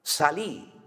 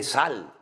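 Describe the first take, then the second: First: "Salí" with the stress on the final í, Argentine style; mock Argentine "Salí", stressed on the last syllable; Argentine voseo. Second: "sal" as one short syllable, the way Spain says it; peninsular Spanish. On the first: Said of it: "no, no se dice salí". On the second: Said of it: "se dice sal". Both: Shown as a demonstration.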